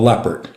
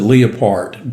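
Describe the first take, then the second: First: The word is said in an American way. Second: The word is said in a non-American way. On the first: "it's also a Leopard, okay, for an American to pronounce it" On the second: "Some pronounce it Leopard"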